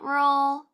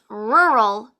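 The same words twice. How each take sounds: First: The R sounds are said soft and weak. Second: The R sounds are said hard and strong. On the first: The speaker calls it wrong. "not rural" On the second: The speaker calls it right. "our R's can be hard"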